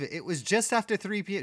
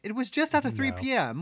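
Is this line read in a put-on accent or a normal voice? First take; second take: normal voice; put-on accent. First: It is read in the speaker's normal voice. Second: It is read in a put-on accent.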